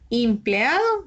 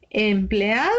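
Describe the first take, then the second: First: "empleado" said as "impleado", questioning; wrong trial vowel. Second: "Empleado" with a clear initial E, rising question; correct first vowel. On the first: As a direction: test "empleado" with an I at the start. ("empleado" pronunciado "impleado", como pregunta) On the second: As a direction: offer "Empleado" with E at the start, as a question. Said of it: "Sí". ("Empleado" con E inicial, en tono de pregunta) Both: Shown as a demonstration.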